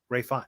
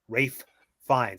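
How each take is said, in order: First: The two F sounds merge into one. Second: The two F sounds are kept separate. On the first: The speaker calls it wrong. "mash them together" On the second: The speaker calls it right. "it's followed by another F sound"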